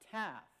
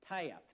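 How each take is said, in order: First: It is said in a standard California accent. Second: It is said in an Arkansas/Oklahoma accent.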